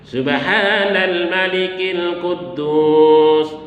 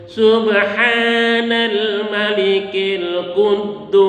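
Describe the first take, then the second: First: It is said at a normal pitch. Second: It is said raised high and drawn out.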